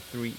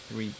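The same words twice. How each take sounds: The two takes are said the same way.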